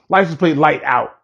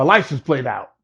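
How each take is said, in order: First: "light" slipped in as the fix; corrected wording. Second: Said in the usual way. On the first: Real, not acted. Teller corrects himself to the light that was out, adding light.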